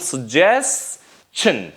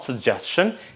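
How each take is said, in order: First: The middle consonant is a ch sound. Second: The middle consonant is a sh sound. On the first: The speaker calls it right. "that T is pronounced as she, as ch sound" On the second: The speaker calls it wrong. "not suggestion"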